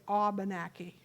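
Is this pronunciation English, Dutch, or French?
Dutch. It is pronounced the way Dutch speakers say it.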